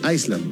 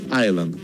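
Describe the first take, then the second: First: The S sound is pronounced in the word. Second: The S in the word is silent. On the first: The speaker calls it wrong. "Hay gente que dice Iceland, no" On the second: The speaker calls it right. "en inglés se pronuncia Island sin la S"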